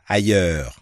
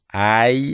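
First: Ailleurs said fast in one beat; teacher showing fast ailleurs; quick ailleurs. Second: Ailleurs drawn out slowly, ai then yeur; teacher showing slow ailleurs. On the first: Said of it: "Đọc lẹ là". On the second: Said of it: "Đọc chậm là". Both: Shown as a demonstration.

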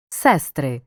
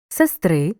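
First: Сестри with stress on the first syllable, СЕстри. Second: Сестри with stress on the last syllable, сестрИ; stress on the ending. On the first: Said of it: "називного відмінка множини за наголосами". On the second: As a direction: lean on the final и of Сестри. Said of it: "Розрізняй форми родового відмінка однини". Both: Shown as a demonstration.

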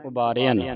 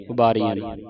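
First: ਉਬਾਰਿਆ ਨੇ with a short "i". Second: ਉਬਾਰੀਆਂ ਨੇ with a long "ee". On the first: Shown as a demonstration. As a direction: shorten the vowel in ਉਬਾਰਿਆ, "ubaa-ri-aa". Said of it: "ਸਿਹਾਰੀ ਲਾ ਕੇ ਪੜ੍ਹਨਾ ਹੈ". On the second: Retold or imitated. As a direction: demonstrate mistaken ਉਬਾਰੀਆਂ, "ubaa-ree-aan". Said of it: "ਬਿਹਾਰੀ ਲਾ ਦਿੰਦੀਆਂ".

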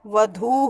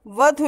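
First: वधू with a long drawn-out final "oo"; correct pronunciation. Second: वधु with a short final u; wrong pronunciation. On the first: Teacher contrasts small and big u, long-vowel वधू. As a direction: hold the last vowel of वधू. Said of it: "छोटा ऊ और बड़ा ऊ". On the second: Teacher rejects the faulty word, short-vowel वधु. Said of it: "नहीं होता". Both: Shown as a demonstration.

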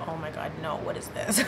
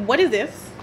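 First: Breathy near-whisper with a stifled laugh; soft, shocked murmur breaking into a laugh; stunned hushed disbelief. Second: Said in the usual way. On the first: Retold or imitated. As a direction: half-whisper it, caught off guard and amused. Song suddenly plays in her spirit.

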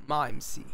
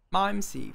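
First: Mimsy as "maimsi", low, falling; English accent. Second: Mimsy as "maimsi"; English accent. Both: Shown as a demonstration. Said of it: "faut le dire avec l'accent".

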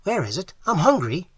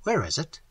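First: High, hungry eagerness; eager, higher-pitched question; affected eagerness. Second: Raised pitch, pointed question; brief, insistent query; pressing demand. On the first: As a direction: pipe up eagerly, laying it on. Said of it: "replied Falabai with affected eagerness". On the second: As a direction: press him for an answer. Trent pressing friend about money. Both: A narrator's reading.

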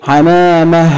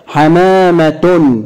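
First: حمامة ending in a breathed h; stopped with sukun. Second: حمامة slowly as "ḥamāma-tun"; linked-form حمامة, modeled for pupils to join in; voweled ending. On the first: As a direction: say حمامة as "ḥamāmah", no t. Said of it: "هننطقها بالسكون". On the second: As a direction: say حمامة with the final t and "un" sounded. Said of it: "هنطقها مرة بالتشكيل". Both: Shown as a demonstration.

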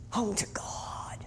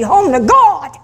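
First: Slow, very soft whisper. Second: High, ringing proclamation; rousing climax. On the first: Preacher echoing the final words, slow whisper. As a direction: breathe it out as a slow echo. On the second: Preacher ending on life's journey, rousing and high. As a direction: lift it high to the congregation. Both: Real, not acted.

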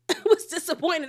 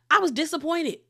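First: Repeated through a laugh. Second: Said in the usual way. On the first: Real, not acted. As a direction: laugh while saying it again.

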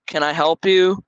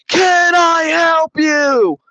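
First: Said in the usual way. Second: Slow, much higher shouted Can I help you with a hammed-up push on Can; mock shout. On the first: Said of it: "and then she's like". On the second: Neighbor shouting at the narrator walking away, slow high mock yell. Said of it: "she says it again".

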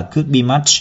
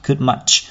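First: "could be much" with BE sounded; full unreduced phrase. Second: "could much" with BE left out; dropped word. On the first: Teacher showing what is not sung, full unreduced phrase. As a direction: keep all three words, could-be-much. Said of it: "chúng ta sẽ không hát là". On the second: Teacher showing the shortened sung version, dropped word. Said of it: "mà chúng ta hát là". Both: Shown as a demonstration.

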